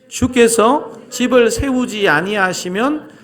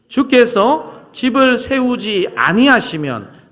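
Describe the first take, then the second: First: No word is given special stress. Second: The word 아니하시면 is stressed.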